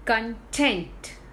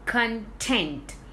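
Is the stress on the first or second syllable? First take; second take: second; second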